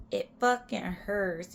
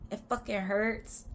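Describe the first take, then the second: First: "fucking" punched, slow and emphatic; stress on fucking. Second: Said in the usual way. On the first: Shown as a demonstration. Insisting to viewers that rollerblading hurts, slow emphasis. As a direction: drag out "It fucking hurts" slowly. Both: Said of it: "repeated phrase".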